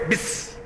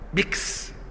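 First: The word ends with an s sound instead. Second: The word ends with k followed by s. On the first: "يكل الكاف ويخليها سين" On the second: "بعد الكاف يزود على الإيه السين"

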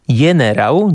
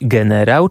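First: The word starts with a 'y' sound. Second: The word starts with a hard 'g' sound. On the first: This is the old form of the word. "W starych tekstach znajdziemy także wyrazy" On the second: This is the modern form of the word. "dziś generał"

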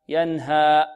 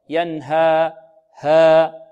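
First: The final vowel ends with a glottal stop. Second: The final vowel ends with an added breathy h. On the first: "لا نختمها بهمزة ... خطأ" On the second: "هذا خطأ"

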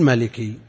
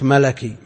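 First: The second syllable is said with an 'i' vowel. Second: The second syllable is said with an 'a' vowel. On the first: The speaker calls it wrong. "ما تقول ملكي" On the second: The speaker calls it right. "إذا كان مكسور الثاني يفتح في النسبة، كما تقول النسبة إلى الملك ملكي"

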